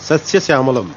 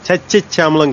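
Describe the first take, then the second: First: The word begins with an s sound. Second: The word begins with a ch sound. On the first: The speaker calls it right. "కాదు సస్యశ్యామలం" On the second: The speaker calls it wrong. "చచ్యశ్యామలం కాదు"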